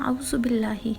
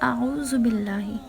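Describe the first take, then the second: First: The vowels and doubled sounds are rushed and blurred. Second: The vowels and doubled sounds are clearly articulated. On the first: The speaker calls it wrong. "हम इस तरह से पढ़ते हैं" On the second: The speaker calls it right. "जबकि सही तलफ़ुज़ है"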